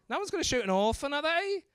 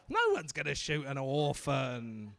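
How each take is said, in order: First: "No one's gonna shoot an orphan, are they?" quick, rising doubtfully at the end; like a question. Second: "No one's gonna shoot an orphan" low, as a settled statement. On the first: Retold or imitated. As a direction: ask "are they?" with a high, unsure lift. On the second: Shown as a demonstration. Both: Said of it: "don't say it like a question".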